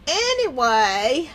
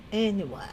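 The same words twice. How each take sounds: First: Slow, stretched "anyway"; drawn-out segue. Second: Soft, low, whispered "anyway"; whispered echo. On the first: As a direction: stretch it out to change the subject. Changing the subject, says it twice. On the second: Streamer moving on from cookie talk, whispered echo. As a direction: whisper it away to yourself. Repeats it to self, trailing away. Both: Real, not acted.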